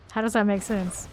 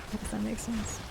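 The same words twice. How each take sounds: First: Said in the usual way. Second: Much softer, to yourself; muttered puzzlement. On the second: Real, not acted. Streamer puzzling over chat's remark, quietly to self. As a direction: repeat it under your breath.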